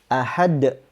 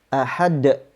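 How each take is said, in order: No difference in how they are said.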